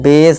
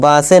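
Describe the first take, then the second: First: It has one syllable with an 'ay' vowel. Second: It has two syllables with an 'aa' vowel. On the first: The speaker calls it right. "नहीं बेस" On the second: The speaker calls it wrong. "बासे नहीं"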